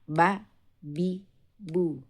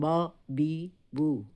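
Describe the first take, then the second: First: The syllables sound thin and flat. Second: The syllables sound hollow and resonant inside. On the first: The speaker calls it right. "Jadi datar seperti ini" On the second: The speaker calls it wrong. "bukan ba, bi, bu. Tidak uh, dibuat cekungan atau tidak menggema di dalam"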